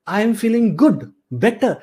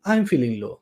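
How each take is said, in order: First: Higher, upbeat answer; positive self-check. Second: Lower, softer downbeat answer; low-spirited. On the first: Coach modelling a good answer to a self-check, upbeat. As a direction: say it like things are going well. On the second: Coach modelling a low answer to a self-check, downbeat. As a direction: let pitch and volume sink. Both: Shown as a demonstration.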